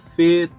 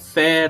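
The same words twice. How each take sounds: First: The vowel is closed, like Portuguese ê. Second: The vowel is open, like Portuguese é. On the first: The speaker calls it right. "o som sempre fechado" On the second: The speaker calls it wrong. "nós brasileiros temos uma tendência para falar"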